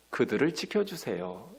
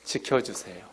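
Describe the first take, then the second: First: Gentle plea, lighter at the end; quoted prayer. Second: Low, soft repeat of 지켜주세요; soft echo. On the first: Retold or imitated. Preacher voicing Jesus' prayer for his disciples, gently pleading. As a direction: ask softly for protection. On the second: Shown as a demonstration. Preacher repeating the prayer's plea, low and soft. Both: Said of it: "지켜주세요라고 기도하는".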